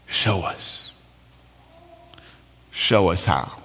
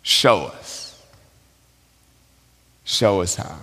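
First: Hushed, breathy murmured prayer; praying whisper. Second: Soft, low repeated plea; quiet prayer. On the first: Betsy murmurs a prayer in the flea barracks, hushed. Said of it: "realize that her sister is praying". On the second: Preacher repeats Betsy's prayer to the congregation, softly. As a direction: pray it gently under the breath. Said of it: "is praying". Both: Retold or imitated.

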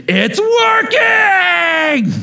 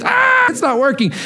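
First: Very high, long-drawn ecstatic shriek; freaking-out child. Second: High-pitched mock wail of distress; screaming child. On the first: Retold or imitated. Father acting his son's joy at the revived toy, elated shriek. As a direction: stretch it into a squealing, overjoyed kid's cry. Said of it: "He freaks out". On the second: Father mimicking his son over a broken toy, mock scream. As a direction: imitate an upset kid's scream, without full volume. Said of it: "he just starts screaming".

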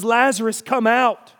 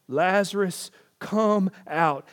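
First: "Lazarus, come out" called loud and high; commanding call. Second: Said in the usual way. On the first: Shown as a demonstration. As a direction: call him out of the tomb with command. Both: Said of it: "we hear in his voice the very directions".

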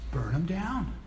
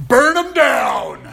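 First: Soft, matter-of-fact verdict; understated condemnation. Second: High, loud, drawn-out yell; mock road rage. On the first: Acted. Patriot Jonah to God about Nineveh, quietly dismissive. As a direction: say it quietly, as a settled conclusion. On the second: Driver to whoever cut them off in traffic, mock-furious yell. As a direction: bellow it slowly like a comically vengeful driver.

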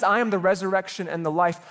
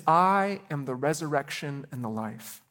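First: Proclaimed, with "am" stressed; emphatic quote. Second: Said in the usual way. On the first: Shown as a demonstration. Preacher proclaiming Jesus' words to the church, emphatic. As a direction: declare "I am" with weight. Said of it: "as Jesus says". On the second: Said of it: "He says".

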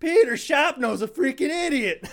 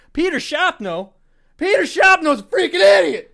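First: High, louder imitation of a ranting teacher; mock angry yell. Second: High, loud, raging teacher scream; furious yell. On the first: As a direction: replay the teacher's rant, a touch hammed-up. Retelling the teacher's outburst again. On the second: Retold or imitated. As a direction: blow up at the kid's name like a furious teacher. Teacher raging at absent student.

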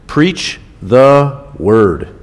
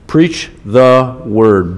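First: Very slow, each word weighted; slow emphasis. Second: Slow, PREACH punched; stress on PREACH. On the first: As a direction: draw out preach the word. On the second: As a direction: PREACH hit, then slow the word. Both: Shown as a demonstration. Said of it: "It's underlined in my Bible".

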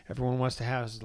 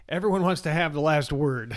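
First: Said in the usual way. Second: "everyone" punched out loud, with a laugh; stress on everyone. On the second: Shown as a demonstration. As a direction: hit "everyone" hard and loud. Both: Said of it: "That's what I'm trying to say".

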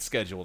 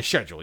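First: Schedule said as skedjwel with a hard k; schedule slurred as skedjwel, hard k sound; schedule fumbled as skedjwel; schedule misspoken. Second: Schedule fixed to shedjel, sh sound first; schedule carefully redone as shedjel; schedule corrected. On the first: Real, not acted. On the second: Shown as a demonstration. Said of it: "excuse me".

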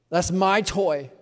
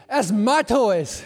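First: Slow, louder, whiny possessive; sulky kid. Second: Slow, loud, higher mock-stern; fatherly claim. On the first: Retold or imitated. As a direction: drag out my toy like a child. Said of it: "and you're like". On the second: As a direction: own it firmly to tease the kid. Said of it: "I said".

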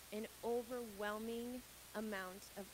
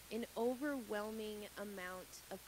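The two takes are said the same way.

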